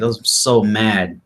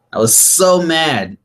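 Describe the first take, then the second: First: Said in the usual way. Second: Higher, slow, breaking into a laugh; laughing at himself. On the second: Real, not acted. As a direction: repeat it, cracking up at the memory.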